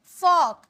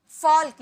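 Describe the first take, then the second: First: फॉक as "fawk", with no l; silent l. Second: फॉल्क with l heard before k; sounded l. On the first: Teacher models the word for learners, silent l. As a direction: say फॉक loud and higher, l left out. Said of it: "इसे फॉक पढ़ेंगे". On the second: Teacher shows the reading to avoid, sounded l. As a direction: say फॉल्क loud, pronouncing the l. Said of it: "इसे फॉल्क नहीं". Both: Shown as a demonstration.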